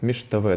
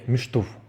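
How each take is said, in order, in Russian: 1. Слово произносится полностью, оканчивается на -avy. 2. Слово сокращённое, оканчивается на -uv. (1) "как правильно, как это правильно пишется" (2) "в разговорной речи люди говорят «миштув»"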